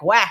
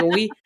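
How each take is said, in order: First: "Ouais" said casually as "weh"; colloquial French. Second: "oui" said as a neat "wee"; textbook French. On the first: Showing how real French people talk, colloquial "Ouais". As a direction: say "Ouais" with an open, slangy "eh" ending. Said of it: "like, the colloquial thing too". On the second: Showing what French people don't say, textbook "oui". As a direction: say "oui" with the standard "ee" ending. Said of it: "They don't say". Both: Shown as a demonstration.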